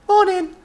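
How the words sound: It is said brightly, with cheerful energy.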